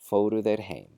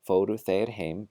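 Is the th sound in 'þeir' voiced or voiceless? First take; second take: voiced; voiceless. First: The pronoun starts with a voiced th sound. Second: The pronoun starts with a voiceless th sound.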